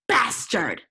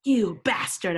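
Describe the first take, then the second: First: Louder hammed-up snap of the insult; mock angry shout. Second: Mock angry shout. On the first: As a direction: fling the insult in mock anger. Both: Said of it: "I shouted angrily".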